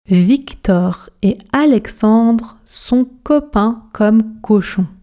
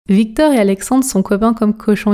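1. Elle est dite très lentement, avec une articulation soignée. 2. Elle est dite vite, d'une façon détendue et décontractée. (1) "on commence à la vitesse tortue, objectif articulation" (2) "pratiquons la version rapide, la version express"

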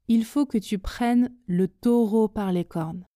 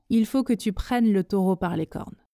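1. Chaque son est prononcé lentement et avec soin. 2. La phrase s'enchaîne à une vitesse modérée et fluide. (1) "On commence à la vitesse tortue, tout doucement pour commencer. Articulez bien, prononcez bien chaque son lentement" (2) "Même chose, mais à la vitesse intermédiaire"

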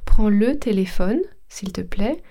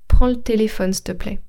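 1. Le e de 'le' est entièrement prononcé. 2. Le e de 'le' est supprimé. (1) "Normalement, je devrais dire" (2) "quand on parle, on a tendance à aller plus vite"

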